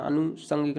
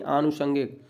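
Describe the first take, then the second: First: Short opening a in अनुषंगिक; teacher showing the short-vowel mistake; wrong pronunciation. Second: Long opening aa in आनुषंगिक; teacher's corrected long first vowel; correct pronunciation. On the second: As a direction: start आनुषंगिक with a held आ. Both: Shown as a demonstration. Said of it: "अनुषंगिक नहीं".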